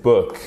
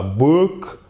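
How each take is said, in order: First: Book with a short lax vowel, falling; ou court. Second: Book with a long, drawn-out, rising "oo". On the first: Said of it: "Ici, c'est un ou court". (book avec un « ou » court) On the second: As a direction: stretch book into "boook". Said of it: "C'est pas un ou long comme ça". (book avec un « ou » long, exagéré) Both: Shown as a demonstration.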